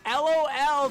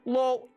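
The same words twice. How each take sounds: First: It is spelled out as three letters. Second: It is said as one single word. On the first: The speaker calls it wrong. "we used to say LOL but not like spell it" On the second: The speaker calls it right. "I could even accept if they went"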